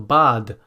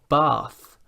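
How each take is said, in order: First: The word ends with a d sound. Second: The word ends with a th sound. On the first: The speaker calls it wrong. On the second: The speaker calls it right.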